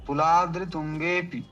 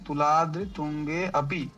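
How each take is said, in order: First: The initial 'a' of 'api' is dropped. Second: The initial 'a' of 'api' is pronounced clearly. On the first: The speaker calls it right. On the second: The speaker calls it wrong. "ऐसे नहीं कहना है"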